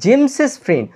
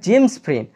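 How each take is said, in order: First: The name ends with an added "iz" syllable. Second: The name ends without any added syllable. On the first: The speaker calls it right. "উচ্চারণ করার সময় এর সাথে ইএস add করতে হবে" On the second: The speaker calls it wrong. "কখনোই বলা যাবে না"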